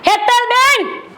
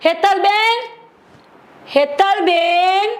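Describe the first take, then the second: First: Fed-up sister-in-law, shouting across the house; angry shout. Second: Calling her name across the house; summoning a sister-in-law, a calling voice. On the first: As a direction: bellow her name, out of patience. Third call, patience gone. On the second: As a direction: call for Hetalben from another room, drawn out. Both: Acted.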